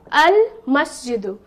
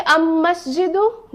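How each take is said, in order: First: "al masjidu" with lam fully sounded; clear lam. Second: "am masjidu" with lam merged into a doubled m; wrong pronunciation. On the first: Teacher correcting to the moon-letter form. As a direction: keep the l in "al masjidu". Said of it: "No, I will say". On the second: Teacher asking students if the wrong form is right. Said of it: "will I say". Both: Shown as a demonstration.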